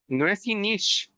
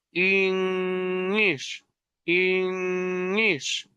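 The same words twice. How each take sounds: First: Said in the usual way. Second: Inish with a humming nasal ng. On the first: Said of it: "no es lo mismo decir inish". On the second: Shown as a demonstration. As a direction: let the nose vibrate on inish. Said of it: "Hay un sonido nasal, la nariz, vibra".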